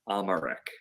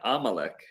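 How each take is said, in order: First: The middle consonant is an R sound. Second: The middle consonant is an L sound.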